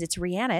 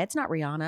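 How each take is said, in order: First: Rihanna said ree-AH-nuh, the way she says it; correct pronunciation. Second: Rihanna said ree-ANN-uh, the common way; wrong pronunciation. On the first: Host demonstrates the singer's own pronunciation of "Rihanna". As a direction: give "Rihanna" an open ah in the middle. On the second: Host demonstrates the common wrong way to say "Rihanna". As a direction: flatten the middle of "Rihanna" to ann. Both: Shown as a demonstration.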